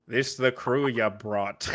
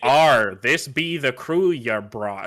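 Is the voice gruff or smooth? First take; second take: smooth; gruff. First: The Scottish accent is said without gruffness. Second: The Scottish accent is said gruff and aggressive.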